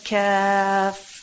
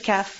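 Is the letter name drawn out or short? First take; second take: drawn out; short. First: The letter name is drawn out long. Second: The letter name is said short. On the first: The speaker calls it right. "he said kaf" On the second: The speaker calls it wrong. "He didn't say kaf"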